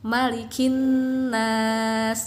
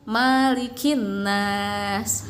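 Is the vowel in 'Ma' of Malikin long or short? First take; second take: short; long. First: The first vowel 'ma' is kept short. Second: The first vowel 'ma' is drawn out long. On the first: The speaker calls it right. "Itu maknya pendek" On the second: The speaker calls it wrong. "dipanjangin maknya"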